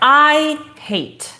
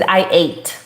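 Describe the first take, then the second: First: The h sound at the start is pronounced. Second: The h sound at the start is dropped. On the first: The speaker calls it right. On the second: The speaker calls it wrong. "you did not pronounce the this sound"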